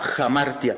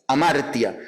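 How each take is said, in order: First: The word begins with a breathy h sound. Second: The word begins directly with a vowel sound.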